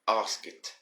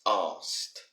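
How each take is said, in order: First: The ending is said as an extra syllable. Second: The ending is a short t sound. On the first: The speaker calls it wrong. "a few students that always say ask it" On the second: The speaker calls it right. "the correct pronunciation should be asked"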